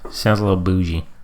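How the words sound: It sounds mildly judgmental. A casual remark that still hints at judgment. "the tone of voice you said it in shared all we need to know"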